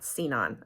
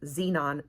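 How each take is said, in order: First: The word begins with a sound other than z. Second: The word begins with a plain z sound. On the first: The speaker calls it wrong. "not Xenon" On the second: The speaker calls it right. "now we have established that it's Xenon"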